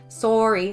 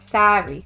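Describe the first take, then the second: First: Said in a Canadian accent with a rounded o vowel. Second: Said in an American accent with an open a vowel. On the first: "when I say sorry, I go like sorry" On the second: "the States they go like sorry"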